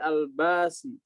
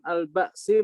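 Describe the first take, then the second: First: The glottal stop becomes a long vowel. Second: A glottal stop is heard before the 's'.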